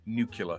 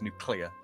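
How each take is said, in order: First: The stress falls on the first syllable. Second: The stress falls on the second syllable. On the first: The speaker calls it wrong. "George Bush again" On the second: The speaker calls it right. "the emphasis should actually be on the cle part rather than the nu part"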